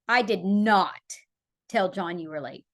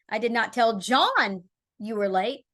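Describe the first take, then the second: First: The stress is on "did not". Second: The stress is on "John".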